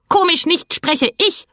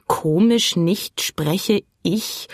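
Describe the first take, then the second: First: High, outraged bird cry, rising at the end; indignant, much higher bird voice. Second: Very slow, musing echo of the words; drawn-out thoughtful repetition; slow, puzzled repeat. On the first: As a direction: shoot up in offended protest. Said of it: "rief der Plappergei empört". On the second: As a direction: turn the odd sentence over slowly in your head. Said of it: "wiederholte Philipp langsam und überlegte". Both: A narrator's reading.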